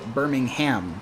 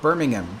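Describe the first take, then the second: First: The last syllable is a full "ham" with h. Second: The last syllable is a reduced "um" without h. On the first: The city in Alabama is meant. The speaker calls it right. "you must pronounce it Birmingham" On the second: The city in the UK is meant. The speaker calls it wrong. "You cannot pronounce it Birmingham"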